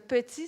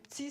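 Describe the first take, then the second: First: Both syllables are fully pronounced. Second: The first vowel is dropped, giving one syllable. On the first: Learners take this to be the normal form. "c'est normal" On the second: Learners think this comes only from speaking fast. "c'est juste parce que je parle vite"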